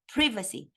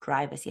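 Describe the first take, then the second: First: "Privacy" with a short i, PRIV-uh-see; British "Privacy", short i, stress on PRIV; English pronunciation. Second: "Privacy" with a long i, PRYE-vuh-see; American "Privacy", long i as in "eye"; American pronunciation. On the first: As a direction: say "Privacy" the British way, first syllable like "privy". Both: Shown as a demonstration. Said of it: "I'm gonna pronounce it with the English accent".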